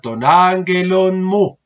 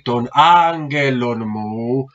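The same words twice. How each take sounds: First: Angelon has a second stress on its last syllable. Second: Angelon has only one stress, with no extra accent. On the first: The speaker calls it right. "tener un acento como que nos ayude también a respirar" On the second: The speaker calls it wrong. "para que no quede pronunciado así"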